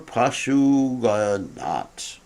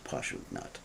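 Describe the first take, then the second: First: It has an extra vowel, four syllables. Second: It is shorter, with three syllables. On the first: The speaker calls it wrong. "I didn't pronounce that right" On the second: The speaker calls it right. "It's just Pashugnat"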